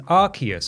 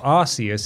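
First: The name begins with a hard 'ark' sound. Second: The name begins with a soft 'arse' sound. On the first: This is the pronunciation the speakers prefer. "It's called Pokemon Legends Arceus" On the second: This is how many people online say it. "if you want to pronounce it like 50% of people on the internet"

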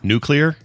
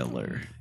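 First: The word is said as new plus clear. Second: The word is not said as new plus clear. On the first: The speaker calls it right. "say the two words, new and clear. So if you say those together" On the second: The speaker calls it wrong. "my dad's nuclear. Yeah, he'd say that"

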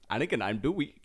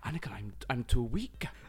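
First: It is said in an Indian accent. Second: It is said in a Welsh accent.

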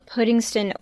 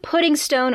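First: The last syllable is reduced to a weak 'ston'. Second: The last syllable is a full 'stone'. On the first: The speaker calls it wrong. "You said it wrong" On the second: The speaker calls it right. "we say the stone here for this one"

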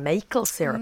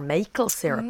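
First: It is said with a child's mispronunciation. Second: The same.

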